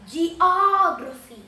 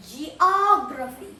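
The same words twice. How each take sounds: First: "Geography" said slowly, louder, falling at the end; drawn-out loud "Geography" that drops at the end; slow, loud pronunciation demo. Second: "geography" said slowly with a rising end; drawn-out "geography" that lifts at the end; slow pronunciation demo. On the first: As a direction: sound out "Geography" slowly and louder, finishing with a fall. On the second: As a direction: sound out "geography" slowly, rising on the last syllable. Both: Shown as a demonstration. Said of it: "So that's how you pronounce it".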